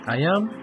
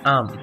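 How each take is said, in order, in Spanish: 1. Se dicen dos palabras completas por separado. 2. Las palabras se unen en una sola sílaba. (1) "Forma larga" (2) "Forma contraída"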